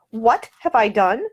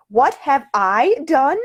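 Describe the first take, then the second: First: Slow, incredulous repeat of the question; stunned echo. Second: Higher, louder, slower, indignant; rising outrage. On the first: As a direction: echo it back in disbelief. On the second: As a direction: throw the question back, offended. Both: Acted. She is accused, goes rigid.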